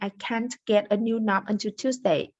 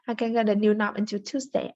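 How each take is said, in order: First: The T at the end of can't is clearly pronounced. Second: The T at the end of can't is dropped. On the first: "instead of saying" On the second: "without fully articulating the T"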